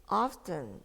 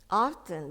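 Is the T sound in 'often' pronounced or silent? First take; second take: pronounced; pronounced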